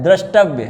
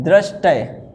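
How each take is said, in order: First: द्रष्टव्य ending in a clear -tavya; correct form. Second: दृष्टय ending in -tay; wrong form. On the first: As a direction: sound v plus y in द्रष्टव्य. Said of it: "क्या होता है". (द्रष्टव्य में व्य साफ़) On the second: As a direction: leave the v sound out of दृष्टय. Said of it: "ये नहीं होता है". (दृष्टय, अंत में बिना व के) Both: Shown as a demonstration.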